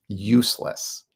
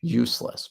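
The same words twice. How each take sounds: First: "Useless" lifted at the end, as if asking; "Useless" climbing upward; useless with a rising tune. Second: "Useless" dropped flat and final; "Useless" falling firmly down; useless with a falling tune. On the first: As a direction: let "Useless" rise in disbelief. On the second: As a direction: close the door on "Useless". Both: Real, not acted. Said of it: "His business advice is useless to me".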